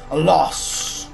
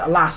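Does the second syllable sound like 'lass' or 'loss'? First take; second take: loss; lass. First: The second syllable sounds like 'loss'. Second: The second syllable sounds like 'lass'. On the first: The speaker calls it right. "it's a loss" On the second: The speaker calls it wrong. "You don't pro- pronounce it alas"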